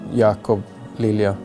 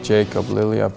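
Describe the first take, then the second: First: The name is said with Swedish pronunciation. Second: The name is said with English pronunciation. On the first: "in Swedish you say" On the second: "here in English it's more like"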